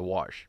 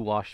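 First: The word is said with an R sound. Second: The word is said without an R sound. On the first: It means a dry desert creek bed. "wash, like the desert thing, has an R in it" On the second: It means cleaning something. "I do wash my clothes"

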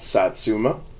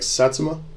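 First: One syllable is stressed more than the others. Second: All syllables are said with even weight. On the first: The speaker calls it wrong. "my pronunciation could be off" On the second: The speaker calls it right. "Japanese people don't enunciate syllables... probably sounds better as far as the genuine pronunciation"

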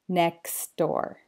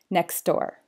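First: The phrase is said at a slower pace. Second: The phrase is said at a fast pace. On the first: "then slower"

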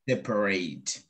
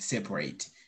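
First: The second syllable is clearly pronounced. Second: The second syllable is skipped over. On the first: It is the verb. "And then the verb separate" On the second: It is the adjective. "jumping the second syllable, like separate"

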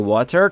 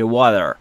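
First: It is said in a standard textbook accent. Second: It is said in an American accent. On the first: "تلفظ استاندارد آموزشیش میشه water" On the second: "تلفظ امریکاییش میشه water"

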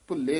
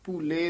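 First: The first vowel is short, before a doubled consonant. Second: The first vowel is long, with a single consonant. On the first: The speaker calls it wrong. "ਭੁੱਲੇ ਨਹੀਂ ਕਹਿਣਾ" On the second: The speaker calls it right. "ਭੂਲੇ ਦਲੈਂਕੜ ਨਾਲ ਉਚਾਰਨ ਕਰਨਾ ਹੈ"

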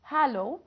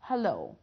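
First: The stress is on the first syllable. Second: The stress is on the second syllable. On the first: The speaker calls it wrong. "احنا ما بنقولهاش hello" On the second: The speaker calls it right. "المقطع القوي هو المقطع التاني مش الاول"

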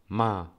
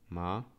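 First: The syllable sounds sharp, like a command. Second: The pitch dips down, then rises. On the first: It means to scold. "czwarty ton, taki ja to nazywam rozkazujący" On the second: It means horse. "Trzeci ton tak opadająco wznoszący"

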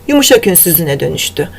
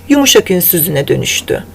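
No difference in how they are said.

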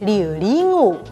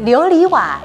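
First: 瓦 begins with a nasal consonant. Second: 瓦 begins without a nasal consonant.

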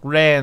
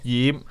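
First: The character is read with its Mandarin sound. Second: The character is read with its Cantonese sound. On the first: "国语就读。读ran 啊" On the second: "粤语读染"

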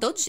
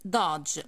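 First: The vowel is a rounded 'o' sound. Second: The vowel is an open 'ah' sound. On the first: The speaker calls it wrong. "it's not Dodge" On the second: The speaker calls it right. "it's Dodge"

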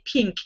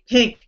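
First: The vowel is a short 'i' sound. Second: The vowel is a short 'e' sound. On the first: "I don't say pink" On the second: "I say pink. P-E-N-K"

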